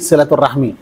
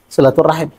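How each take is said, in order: First: The word ends with a spoken vowel sound. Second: The word ends on a consonant, no final vowel. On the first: This is how Indonesians say it. "Kalau yang mengucapkan itu orang Indonesia, berarti silaturahmi" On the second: This is how Arabs say it. "ketika berhenti harakahnya dimatikan"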